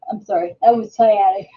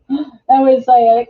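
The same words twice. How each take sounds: First: Said in the usual way. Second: A real pained laugh, a bit louder; laughing through pain. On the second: Real, not acted. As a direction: laugh it off while it hurts.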